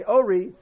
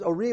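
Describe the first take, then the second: First: "ori" punched on the O; stress on first syllable. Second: First "ori" stressed on "ri"; stress on last syllable. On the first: Teacher giving the intended word, "ori" stressed up front. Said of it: "when he's supposed to say ori". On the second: Teacher showing the reverse mistake, "ori" stressed at the end. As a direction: push the final syllable of "ori". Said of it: "or a person says ori when". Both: Shown as a demonstration.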